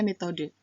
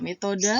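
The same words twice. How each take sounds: First: Metode ending on E; standard form. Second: Metode said as "metoda"; non-standard form. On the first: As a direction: say metode with a final "de". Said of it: "kata bakunya metode". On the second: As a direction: end metode on an A sound. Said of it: "kata tidak baku dan kata bakunya". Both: Shown as a demonstration.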